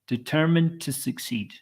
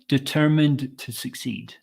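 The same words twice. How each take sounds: First: The final D is softened and linked smoothly. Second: The final D is fully pronounced, less smoothly. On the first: The speaker calls it right. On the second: The speaker calls it wrong.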